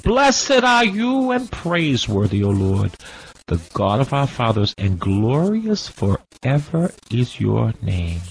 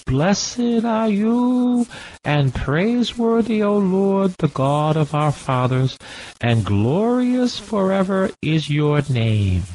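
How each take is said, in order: First: Said in the usual way. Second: High, slow, chanted prayer voice; lightly chanted scripture prayer; intoned prayer. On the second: Acted. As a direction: lift it up like a psalm sung in the furnace. Preacher intones Azariah's prayer.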